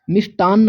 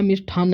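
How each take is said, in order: First: मिष्टान्न with an unaspirated ट, the correct form; teacher says मिष्टान्न with a crisp plain ट; correct spelling said. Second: मिष्ठान्न with an aspirated ठ, the wrong form; teacher breathes out the ठ in मिष्ठान्न. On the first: Teacher shows exam students the correct मिष्टान्न, with a plain ट. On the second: Teacher warns exam students against मिष्ठान्न with aspirated ठ. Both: Shown as a demonstration. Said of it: "मिष्ठान्न नहीं".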